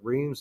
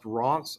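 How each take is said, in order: First: It sounds like the English spelling, "reems". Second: It sounds like "ronce", with a nasal vowel. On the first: The speaker calls it wrong. "I've been pronouncing it wrong my whole life" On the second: The speaker calls it right. "it's pronounced Reims, R O N C E"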